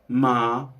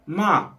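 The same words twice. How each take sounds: First: MA dropped close to speaking pitch; lower tone attempt. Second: MA lifted high again; better tone attempt. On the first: Retrying the tone for viewers, lower MA. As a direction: bring "ma" down toward your usual pitch. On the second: Finding the tone for viewers, high-pitched MA. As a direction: say "ma" high with a short arch. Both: Shown as a demonstration. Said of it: "that sounds more like it".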